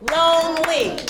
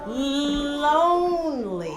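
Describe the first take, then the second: First: Lonely clapped out as two beats, lone-ly, louder; split into syllables. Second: Lonely very slow with a long held L; drawn-out L sound. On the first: Teacher clapping syllables with class, Lonely split in two beats. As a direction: chant Lonely in two even, separate syllables. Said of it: "Clap the syllables with me". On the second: Teacher showing what sound L makes, Lonely slowly stretched. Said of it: "What sound does L make?". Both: Shown as a demonstration.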